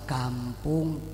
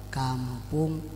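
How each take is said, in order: No difference in how they are said.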